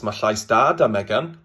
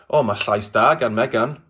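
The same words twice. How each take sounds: First: "Ma' llais da da Megan", with "da" in place of "gan"; southern Welsh dialect. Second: "Ma' llais da gan Megan", said with "gan" before the name; standard Welsh example. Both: Shown as a demonstration. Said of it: "Or in southern dialects".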